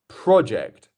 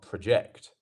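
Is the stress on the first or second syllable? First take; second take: first; second. First: The stress is on the first syllable. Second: The stress is on the second syllable. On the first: It is the noun. The speaker calls it right. "It's our first one" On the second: It is the verb. The speaker calls it wrong.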